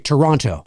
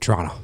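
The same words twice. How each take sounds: First: It is said with an American pronunciation. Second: It is said with a Canadian pronunciation. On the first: This is how outsiders say the city's name. "you Americans say Toronto" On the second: This is how locals say the city's name. "We just go Toronto"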